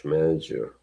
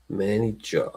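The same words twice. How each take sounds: First: Said in the usual way. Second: MANAGER in a put-on British accent. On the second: Shown as a demonstration. Repeating the coach's title, mock British accent. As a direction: softly imitate British "manager".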